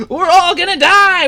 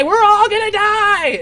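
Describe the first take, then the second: First: High, loud panicked yell; panicked shout. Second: High, loud, stretched-out terrified wail; slower panicked wail. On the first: Pingo shouting to everyone as the ship goes down. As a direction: shout it as pure terror. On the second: Pingo wailing again as the crash nears. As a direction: drag it out in rising dread. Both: Acted. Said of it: "he starts to panic and he shouts".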